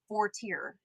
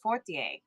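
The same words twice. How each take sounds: First: The name is said with an English pronunciation. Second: The name is said with a French pronunciation. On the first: This is a simplified form others can manage. "they just just dumbed it down" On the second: This is the name's true original form. "but it's Fortier"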